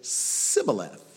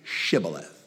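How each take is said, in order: First: The word begins with an s sound. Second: The word begins with an sh sound. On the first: "Their language causes them to say it Sibboleth" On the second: "they can't say Shibboleth"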